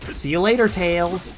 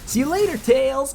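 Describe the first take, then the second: First: It is said in the speaker's ordinary voice. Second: It is said in a put-on cartoon character voice. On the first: "I didn't say it in the Sonic voice" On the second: "I can't even do that"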